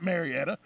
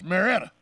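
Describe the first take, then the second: First: Marietta in four syllables, mair-ee-ETT-a; outsider pronunciation. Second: Marietta squeezed to three syllables, mair-ETT-a, louder; local pronunciation. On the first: Host showing how outsiders say it, full four-syllable Marietta. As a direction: sound the 'ee' in the middle of Marietta. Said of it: "it's not Marietta". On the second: Host correcting it as a local, three-syllable Marietta, emphatic. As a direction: drop the 'ee' from Marietta, punch ETT. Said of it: "It's Marietta". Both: Shown as a demonstration.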